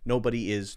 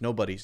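First: The word 'is' is said in full as a separate syllable. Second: The word 'is' is contracted to an 's' sound on 'nobody'. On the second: "I'll make it a little shorter by saying nobody's"

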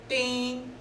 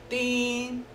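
No difference in how they are said.

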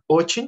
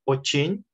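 First: The stress is on the first syllable. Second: The stress is on the second syllable. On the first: The speaker calls it wrong. "not очень" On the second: The speaker calls it right. "stress the stress to the second e"

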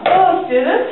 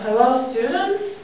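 First: It sounds confident, open and lively. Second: It sounds unconfident, quiet and boring.

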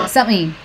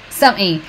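Both takes have the same delivery.

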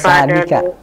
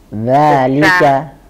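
First: The word begins with a hissing s sound. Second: The word begins with a voiced th sound. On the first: The speaker calls it wrong. "Bukan salika. Afwan, bukan sin" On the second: The speaker calls it right. "Digigit ujung lidahnya"

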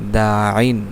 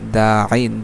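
No difference in how they are said.

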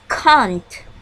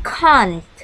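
No difference in how they are said.

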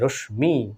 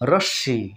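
First: The m sound is heard after the sh. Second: The sh is doubled with no m sound. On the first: The speaker calls it wrong. "এগুলো কিন্তু ভুল বন্ধুরা" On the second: The speaker calls it right. "বর্ষটা double হয়ে যাবে বন্ধুরা"

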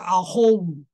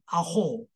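First: The final o is followed by a separate u. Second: The final o is held long, no separate u. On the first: The speaker calls it wrong. "你不会念成啊后五" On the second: The speaker calls it right. "所以念成啊后"

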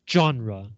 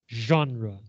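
First: The word is said in an English way. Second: The word is said in a French way. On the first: The speaker calls it wrong. "not genre" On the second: The speaker calls it right. "Other French words like this include genre"

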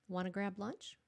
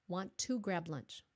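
First: 'Want to' is reduced to 'wanna'. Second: 'Want to' is said in full. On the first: It sounds casual and conversational. The speaker calls it right. "you will sound very conversational if you say wanna" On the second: It sounds less conversational. The speaker calls it wrong. "Will sound better than want to grab lunch"

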